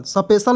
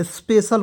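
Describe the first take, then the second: First: स्पेशल with an extra vowel, sa-peshal; स्पेशल said wrongly as sa-peshal; wrong pronunciation. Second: स्पेशल with a tight sp cluster, speshal; स्पेशल said right as speshal; correct pronunciation. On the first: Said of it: "स्पेशल नहीं पढ़ेंगे". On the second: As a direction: start स्पेशल straight on sp. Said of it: "स्पेशल पढ़ते हैं". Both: Shown as a demonstration.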